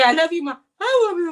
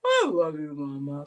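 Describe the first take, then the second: First: High, loud coaxing "I love you"; sing-song baby talk to the dog; high pet-talk coaxing. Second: Low mock dog howl; dog-voiced demo.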